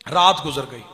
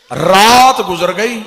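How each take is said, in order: First: Said in the usual way. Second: Slow, loud and high-pitched रात गुजर गई, with a lifted रात; preached line. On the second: Shown as a demonstration. (रात गुजर गई धीमे, ऊँचे और ज़ोर से खींचकर)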